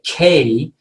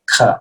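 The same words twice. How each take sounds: First: The k sound followed by a voiced vowel. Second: The bare k sound with no vowel after it. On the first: The speaker calls it wrong. "when I finish that A, I feel a vibration" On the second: The speaker calls it right. "I'm saying K"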